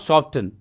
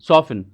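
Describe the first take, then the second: First: The t sound is pronounced in the middle. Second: The t sound is silent in the middle. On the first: The speaker calls it wrong. "Not सॉफ्टन" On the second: The speaker calls it right. "सॉफन होगा"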